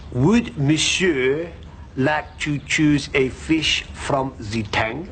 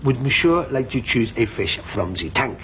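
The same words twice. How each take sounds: First: Put-on slow, drawn-out French accent; French waiter accent. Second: Put-on French accent. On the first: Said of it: "Why does he talk like that? / Because he's French". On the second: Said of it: "Because he's French".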